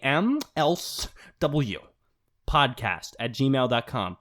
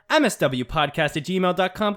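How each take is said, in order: First: It is said very slowly and deliberately. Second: It is said at a normal speaking pace.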